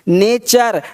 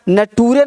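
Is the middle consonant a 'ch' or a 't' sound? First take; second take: ch; t. First: The middle consonant is a 'ch' sound. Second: The middle consonant is a 't' sound. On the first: The speaker calls it right. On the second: The speaker calls it wrong.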